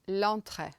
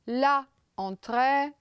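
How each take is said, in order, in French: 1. La voyelle de l'article tombe et se fond avec le nom. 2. L'article garde sa propre voyelle devant le nom. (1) "c'est l'entrée" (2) "c'est pas bien"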